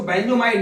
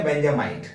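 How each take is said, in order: First: बेंजोमाइड with an O vowel after the benz part; wrong form बेंजोमाइड. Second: बेंजामाइड with an A vowel after the benz part; correct form बेंजामाइड. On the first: Teacher warns students off a wrong name, बेंजोमाइड said with "jo". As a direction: say बेंजोमाइड with "jo" in the middle. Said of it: "इसको बेंजोमाइड नहीं बोलेंगे". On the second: Teacher gives students the right name, बेंजामाइड said with "ja". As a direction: say बेंजामाइड with "ja" in the middle, lower pitched. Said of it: "तो नाम क्या पड़ गया". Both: Shown as a demonstration.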